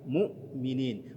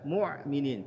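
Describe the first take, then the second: First: A glottal stop comes before the m. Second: A throaty ain sound comes before the m. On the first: The speaker calls it right. "hamzah sukun" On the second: The speaker calls it wrong. "bukan ain sukun. Jangan sampai terbaca"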